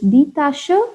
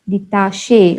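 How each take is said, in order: First: The final e is said as 'uh'. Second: The final e is not said as 'uh'. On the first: The speaker calls it right. "It is die Tasche" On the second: The speaker calls it wrong. "We do not say die Tasche"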